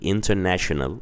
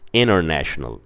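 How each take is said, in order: First: The T after the N is clearly pronounced. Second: The T after the N is dropped. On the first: "like how Brits or how the Brits say it" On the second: "they say international"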